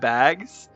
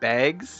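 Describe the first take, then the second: First: The vowel sounds standard American, like 'bags'. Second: The vowel sounds Canadian, like 'baygs'. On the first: "instead of bags" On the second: "Canadian moment. She said bags"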